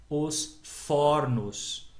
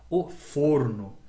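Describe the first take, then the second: First: "fornos" with a wide-open first o, very slow; open vowel. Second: "forno" with a closed first o, said slowly; closed vowel. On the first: Teacher contrasting plural with singular, open vowel. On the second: Teacher contrasting singular with plural, closed vowel. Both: Shown as a demonstration. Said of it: "Mudou o som".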